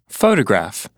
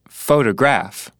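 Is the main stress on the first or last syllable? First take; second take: first; last. First: The main stress is on the first syllable. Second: The main stress is on the last syllable. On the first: The speaker calls it right. "the main stress here is only on photo" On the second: The speaker calls it wrong. "nobody says photograph"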